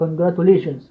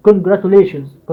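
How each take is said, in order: First: Said in the usual way. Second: Congratulations very slowly, syllable by syllable; split into syllables. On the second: Shown as a demonstration. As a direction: break congratulations into its parts slowly. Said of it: "فقسمها كده". (قول congratulations مقطع مقطع ببطء)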